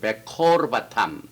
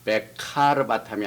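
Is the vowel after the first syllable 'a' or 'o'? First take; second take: o; a. First: The second syllable has an 'o' vowel. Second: The second syllable has an 'a' vowel. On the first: The speaker calls it right. "오로 발음이 되거든" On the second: The speaker calls it wrong. "베카르바탐이 아니라"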